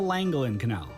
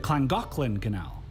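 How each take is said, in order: First: The double L sounds like a plain English L. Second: The double L sounds like a breathy 'cl' sound. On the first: The speaker calls it wrong. "At least that's how I read it" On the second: The speaker calls it right. "the Welsh pronounce the double L's as cla, so it's actually pronounced"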